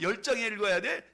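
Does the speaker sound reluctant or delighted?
delighted. It sounds excited and delighted. Reading the Bible is a joy. The speaker calls it right. "즐겁게"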